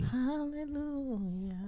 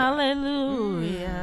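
First: It is said softly and nicely. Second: It is said too loudly.

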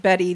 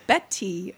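First: The middle consonant is soft, like a D. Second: The middle consonant is a crisp, clear T. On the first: "they think I said two D's instead of two T's" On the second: "So I have to say Betty, you know, which sounds so stupid"

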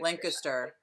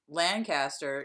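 First: The word is said loosely, with sounds reduced. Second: The word is said carefully, every sound pronounced. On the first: It sounds rural and unsophisticated. "sounds like hickish to me" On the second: It sounds overly careful and weird. "I guess that it's overly pronounced"

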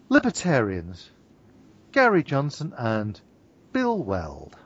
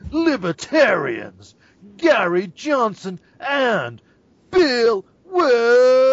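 First: It is said in a normal speaking voice. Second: It is said in a booming announcer voice.

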